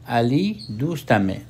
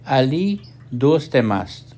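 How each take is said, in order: First: It is said in a colloquial Iranian accent. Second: It is said in a colloquial Afghan accent. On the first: "ईरानी इसको अपनी गुफ्तारी ज़बान में यूँ पढ़ते हैं" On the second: "हम अफ़गानिस्तान में बोलचाल में कहते हैं"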